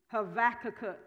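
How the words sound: It is said the Hebrew way, with a V.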